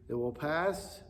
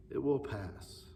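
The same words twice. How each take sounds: First: Said in the usual way. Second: Softer repeat of "It will pass"; softer echo. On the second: Shown as a demonstration. Pastor comforting children, a soft falling echo. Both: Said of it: "because this too shall pass".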